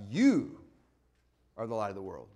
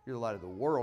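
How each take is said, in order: First: The word 'you' is strongly emphasized. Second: The word 'you' is not emphasized.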